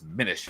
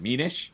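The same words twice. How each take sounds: First: It is pronounced like the end of 'diminish'. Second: It is pronounced as the spelling suggests. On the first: The speaker calls it right. "apparently the correct way to say it" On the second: The speaker calls it wrong. "I said Minish because based on how it's pr- spelled"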